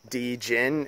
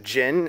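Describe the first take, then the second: First: The word begins with a separate D sound. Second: The word begins without any D sound. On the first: "like D Jin" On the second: "usually a way you say it. Is not with the D"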